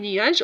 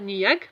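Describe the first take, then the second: First: The word ends in a soft J sound. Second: The word ends in a hard G sound. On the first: The speaker calls it right. "Donc la lettre G se prononce J devant E" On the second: The speaker calls it wrong. "on ne va pas dire niag parce qu'il a la lettre E"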